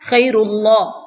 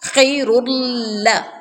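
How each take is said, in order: First: The L is pronounced heavy and thick. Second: The L is pronounced light and thin. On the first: The speaker calls it wrong. "लाम को मोटा पड़ा जाता है तो ये गलती है" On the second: The speaker calls it right. "आपने लाम को बारीक करना है"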